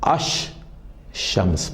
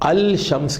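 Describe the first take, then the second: First: The l merges into a doubled sh sound. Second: The l sound is clearly pronounced before shams. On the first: The speaker calls it right. "अश शम्स पढ़ेंगे" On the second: The speaker calls it wrong. "अल शम्स के बजाय"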